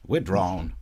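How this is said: It is said in a Southern lawyerly accent.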